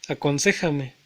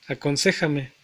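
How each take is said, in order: The two takes are said the same way.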